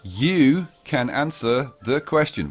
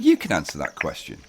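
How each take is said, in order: First: It is said slowly. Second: It is said at normal speed.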